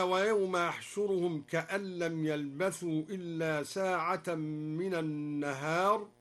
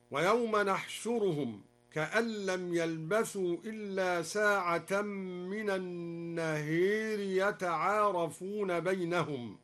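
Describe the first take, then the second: First: Said in the usual way. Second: "نحشرهم" starting with n, "النهير" with a long e; nun and imala. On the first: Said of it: "قرأ الدوري بنون العظمة". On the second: Shown as a demonstration. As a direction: say nahshuruhum and bend "النهير" to an-naher. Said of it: "وأمال النهار هكذا". (بالنون في "نحشرهم" وإمالة "النهير")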